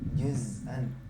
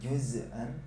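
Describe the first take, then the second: First: The z sound ends cleanly without any bounce. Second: The z sound ends with an echoing bounce. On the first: The speaker calls it right. "tapi juz'an" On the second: The speaker calls it wrong. "Nggak boleh juz'an"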